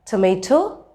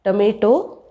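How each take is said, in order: First: Tomato with aspirated T off the gum ridge; English T. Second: Tomato with retroflex, puffless Ts; hard-palate T. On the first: Teacher listing practice words, English T in tomato. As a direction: say tomato with puffs on the Ts. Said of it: "that have the t sound in them". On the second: Teacher showing the wrong placement, retroflex T in tomato. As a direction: say tomato with Indian Ts, tongue further back. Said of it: "It will sound like". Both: Shown as a demonstration.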